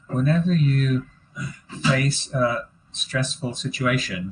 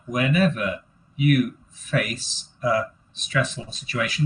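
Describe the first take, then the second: First: It is read in smooth phrase chunks. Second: It is read haltingly, one word at a time.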